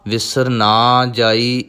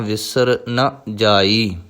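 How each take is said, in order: First: The middle word has a long aa vowel. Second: The middle word has a short vowel. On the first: The speaker calls it wrong. "ਨੰਨੇ ਨੂੰ ਕੰਨਾ ਨਹੀਂ ਲਾਉਣਾ ... ਇਸ ਤਰ੍ਹਾਂ ਨਹੀਂ ਪਾਠ ਕਰਨਾ" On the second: The speaker calls it right. "ਇੱਥੇ ਨੰਨਾ ਮੁਕਤਾ ਹੈ"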